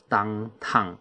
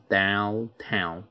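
First: Downtown said slowly as "dangtang", with an ang vowel; wrong downtown. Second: Downtown said slowly with a clear ow vowel, "down-town"; correct downtown. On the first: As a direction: mispronounce downtown as dangtang, the common mistake. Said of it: "这是不对的发音哈". (错误发音的downtown，读成dangtang) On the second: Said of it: "是downtown". (正确发音的downtown，清楚发出ow音) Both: Shown as a demonstration.

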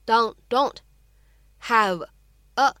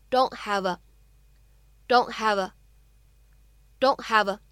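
First: Said in the usual way. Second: "don't" with its t held unreleased, "have a" run together; linked DON'T HAVE A. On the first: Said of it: "当这样的三个单词呢". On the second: Shown as a demonstration. Teacher demonstrates for learners "don't have a" with held t and linking. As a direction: swallow the t of "don't" and link "have a". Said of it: "存在不完全爆破".

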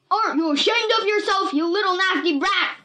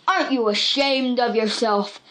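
First: Much higher, loud furious scolding; furious yell. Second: A touch of scolding anger; understated anger. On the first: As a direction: scream at the brat. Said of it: "he screamed". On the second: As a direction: scold her, mildly cross. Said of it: "Buck was really angry". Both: A narrator's reading.

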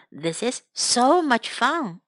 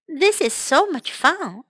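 First: Careful teaching repetition; slow model repeat. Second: Said in the usual way. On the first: Shown as a demonstration. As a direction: draw the phrase out for learners. Slower, lower repeat for learners.

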